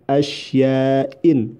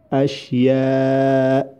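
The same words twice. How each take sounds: Both takes have the same delivery.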